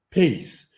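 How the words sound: The word ends in an s sound. "в ашкеназском произношении говорят «пейс» или «паэс»"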